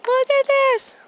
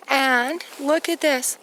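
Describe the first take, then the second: First: High, loud cry of wonder; thrilled. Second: Said in the usual way. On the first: Real, not acted. To her viewers, marvelling at the planets, thrilled. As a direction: burst out in delight at the sky.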